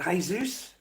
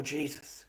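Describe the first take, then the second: First: "Jesus" as hay-ZOOS, in question; Spanish pronunciation. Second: "Jesus" as plain English JEE-zus; English pronunciation. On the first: Streamer asking a viewer about his name, "Jesus" as hay-ZOOS. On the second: Streamer giving a viewer the other option, "Jesus" as JEE-zus. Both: Shown as a demonstration. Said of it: "how you pronounce your name".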